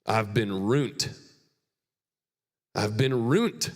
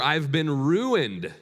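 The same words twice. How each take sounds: First: Put-on a light rural Burns accent, slow and drawn out. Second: "ruined" slow and drawn out, falling at the end; slow emphatic take. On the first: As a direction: quote your friend from Burns in his accent, slowly. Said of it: "it's in his Burns accent". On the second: Shown as a demonstration. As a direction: lean on "ruined", slowly and higher.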